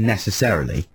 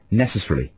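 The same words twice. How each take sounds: First: Every syllable of the word is said in full. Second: The middle is rushed and one syllable is dropped. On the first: "which most people would say" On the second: "You sort of speed through the middle"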